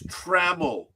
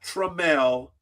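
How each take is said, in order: First: The first syllable sounds like 'tram'. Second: The first syllable sounds like 'trum'. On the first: The speaker calls it right. "It's Trammell" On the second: The speaker calls it wrong. "not Trammell"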